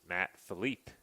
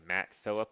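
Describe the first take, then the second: First: The name is said with French pronunciation. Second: The name is said with plain English pronunciation. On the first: The speaker calls it wrong. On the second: The speaker calls it right.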